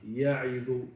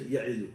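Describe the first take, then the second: First: The word is said slowly with full vowels. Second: The word is said quickly with shortened vowels. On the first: The letters are given their due length. The speaker calls it right. "There's some words that you have to say slowly" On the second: The letters are not given their due length. The speaker calls it wrong. "You don't say ya'idu"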